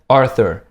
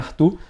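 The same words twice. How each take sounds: First: The name is said with English pronunciation. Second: The name is said with Portuguese pronunciation. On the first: This is how people in the United States say it. "aqui nos Estados Unidos o meu nome se pronuncia Arthur" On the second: This is how the speaker said his own name. "meu nome é Arthur"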